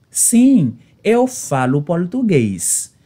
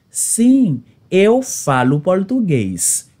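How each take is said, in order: Both takes have the same delivery.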